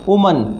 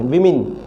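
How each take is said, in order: First: The first vowel is not a short i. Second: The first vowel is a short i. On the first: The speaker calls it wrong. "इसको हम वुमन बोलते हैं" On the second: The speaker calls it right. "इसका सही pronunciation विमिन है, small, छोटी ई है"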